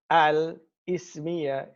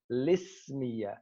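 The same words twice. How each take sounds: First: "al-ismiya" in two parts, starting "ismiya" on its hamza; slow "al-ismiya" with the hamza kept; hamza pronounced. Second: "lismiya" starting on "lis", no glottal stop; slow "lismiya", the kasra moved onto the lam; hamza dropped. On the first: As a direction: say "al", then a separate "ismiya". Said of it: "only pronounce it ibtida'an". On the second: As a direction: run it together as "lismiya". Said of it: "We transfer the kasra from the hamza". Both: Shown as a demonstration.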